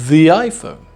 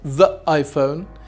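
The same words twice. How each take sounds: First: 'The' flows smoothly into the next word. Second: 'The' sounds hesitant before the next word. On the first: The speaker calls it right. "we transform the word the into the" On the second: The speaker calls it wrong. "it sounds very hesitant"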